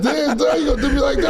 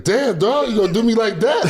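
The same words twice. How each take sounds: First: Much higher, laughing through the words; laughing quote. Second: Much higher mock voice, playful betrayal; mock hurt friend. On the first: Retold or imitated. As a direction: crack up while retelling it. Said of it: "he said". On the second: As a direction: pitch it way up like a teasing buddy. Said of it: "He's like".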